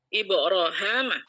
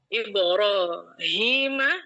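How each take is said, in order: First: The vowel after the h is 'a'. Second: The vowel after the h is 'i'. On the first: This is the variant reading. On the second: This is the usual reading.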